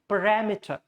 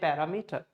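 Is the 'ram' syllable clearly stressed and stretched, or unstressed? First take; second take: stressed; unstressed. First: The 'ram' syllable is stressed and stretched out. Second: No syllable stands out; the word is broken up. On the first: The speaker calls it right. "So ram should come clear. You have to stretch your vowels" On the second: The speaker calls it wrong. "There's no stress, there's no partition"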